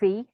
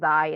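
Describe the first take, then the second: First: It is said Greek-like, starting with a ks sound. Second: It is said English-like, without a starting ks sound. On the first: "or xi" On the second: "it's been anglified to xi"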